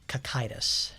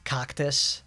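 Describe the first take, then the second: First: The name sounds like 'ka-kai-tis'. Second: The name sounds like the plant 'cactus'. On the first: The speaker calls it right. "in reality it's actually pronounced Kakaitis" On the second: The speaker calls it wrong. "I pronounced it cactus"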